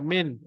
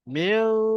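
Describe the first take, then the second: First: The n is pronounced fully with the tongue raised. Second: The n is hidden in a nasal sound. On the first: The speaker calls it wrong. "bukan min" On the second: The speaker calls it right. "lidah tu kena ke bawah"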